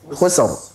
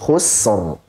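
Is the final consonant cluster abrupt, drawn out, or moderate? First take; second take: abrupt; moderate. First: The ending is cut off abruptly. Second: The ending has a moderate, even length. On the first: The speaker calls it wrong. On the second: The speaker calls it right.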